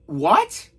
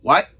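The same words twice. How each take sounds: First: High-pitched, rising disbelief; hammed-up shocked question; incredulous. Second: Short dumbfounded "what"; one small blank word after a long pause; retold speechless reaction; stunned. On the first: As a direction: shoot up high in astonishment. Heightened repeat of stunned reaction. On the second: First stunned reaction to reveal.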